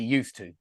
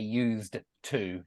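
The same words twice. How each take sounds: First: The D and T merge into one sound. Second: The D and T are sounded separately. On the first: The speaker calls it right. "used to is only one sound" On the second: The speaker calls it wrong. "I don't say used to"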